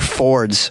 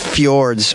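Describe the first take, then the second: First: No y-like sound follows the f. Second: A y-like sound follows the f. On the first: "If it's just fords, can we just remove the J" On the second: "the problem with the Fjords is the J following the F"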